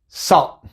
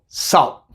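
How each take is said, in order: First: The final T is made as a glottal stop. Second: The same.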